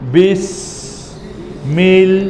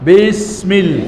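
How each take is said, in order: First: It is said slowly, syllable by syllable. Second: It is said quickly, syllables run together. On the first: "ভেঙে ভেঙে এক আস্তে আস্তে" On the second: "এবার স্পিড বাড়াবেন"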